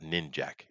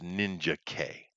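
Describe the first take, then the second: First: The name is said as two syllables. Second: The name is said as three syllables. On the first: The speaker calls it wrong. "It's not Ninjak" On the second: The speaker calls it right. "It's Ninja K"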